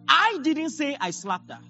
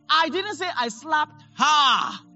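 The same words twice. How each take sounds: First: The stress falls on the first word, I. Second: The stress falls on the last word, her. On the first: Someone else said it. "I stressed I didn't say I slapped her. It means someone else" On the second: A different person was slapped. "I slapped someone else"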